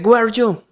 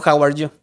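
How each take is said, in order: First: Put-on Indian-English accent. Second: Said in the usual way. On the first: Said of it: "tiene el acento muy parecido al, al, al, a la comunidad india". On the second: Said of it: "lo único que se me vino a la cabeza fue un".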